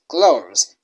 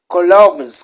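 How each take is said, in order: First: It is said with a standard English pronunciation. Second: It is said with a Kinyarwanda-influenced pronunciation. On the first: The speaker calls it right. "You lead your cloves" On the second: The speaker calls it wrong. "Because we lead from Kinyarwanda, you can find some people leading cloves"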